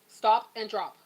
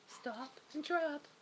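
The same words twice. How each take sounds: First: It is said in a firm, stern voice. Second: It is said in a small, soft voice.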